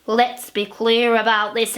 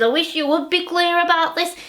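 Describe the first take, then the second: First: Said in the usual way. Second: Higher, fast mocking husband. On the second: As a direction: toss her phrase back quickly. Husband mocking her phrase.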